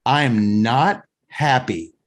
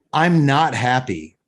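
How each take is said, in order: First: Full "I am", slow stress on "not", pause before "happy"; emphatic restatement. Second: Said in the usual way. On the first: Retold or imitated. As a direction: spell out "am not" slowly, leaving "happy" on its own. Customer repeats complaint more emphatically.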